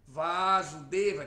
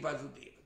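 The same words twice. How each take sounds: First: The first A is held long. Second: The first A is kept short. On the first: It names the son, Krishna. "se você pronuncia com o primeiro A longo" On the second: It names the father. "Se for com A breve"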